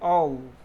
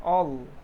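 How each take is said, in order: No difference in how they are said.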